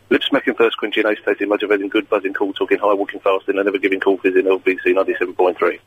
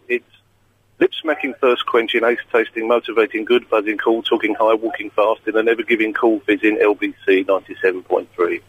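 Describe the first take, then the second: First: It is said at a fast speed. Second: It is said at a normal speed.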